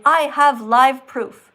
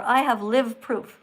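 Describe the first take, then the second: First: "live" rhymes with "five", in "I have live proof"; "live" with long i. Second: "live" rhymes with "give", in "I have live proof"; slow reading, "live" said like "liv"; "live" with short i. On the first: Host reads out Maddie's garbled message, "live" with long i. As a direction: stress each word, "live" said like "lyve". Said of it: "And then you write, ... or". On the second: Host tries another reading of Maddie's message, "live" with short i. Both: Shown as a demonstration.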